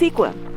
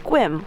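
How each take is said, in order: First: The word is said with two syllables. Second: The word is said with one syllable. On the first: This is how the spelling first seemed to read. The speaker calls it wrong. "I thought it was Sequim" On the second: This is how the name is actually said. The speaker calls it right. "my friend told me it's Squim"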